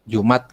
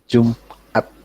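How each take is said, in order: First: The word runs straight through without a break. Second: The word is cut with a short break inside. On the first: The speaker calls it wrong. "jangan dibaca ter- langsung Jumat" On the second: The speaker calls it right. "tapi Jumat"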